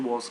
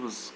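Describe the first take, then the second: First: The vowel in the word is full. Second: The vowel in the word is reduced. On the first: The speaker calls it wrong. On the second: The speaker calls it right. "Schwa sound"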